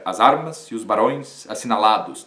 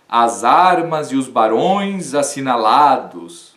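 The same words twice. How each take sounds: First: Said in the usual way. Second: Declaimed verse line. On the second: Shown as a demonstration. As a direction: read the verse like a poem, savoring each word. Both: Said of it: "ninguém vai dizer que o verso está errado".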